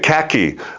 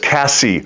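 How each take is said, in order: First: The middle consonant is a k sound. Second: The middle consonant is an s sound. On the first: A small child is saying the name. The speaker calls it wrong. "she couldn't say her name" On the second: An adult is saying the name. The speaker calls it right. "no, baby girl, it's Cassie"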